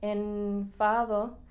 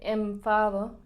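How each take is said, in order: First: The n before f is said with strain. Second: The n blends smoothly into the following f. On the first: The speaker calls it wrong. "es mucho más difícil de decir" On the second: The speaker calls it right. "más natural"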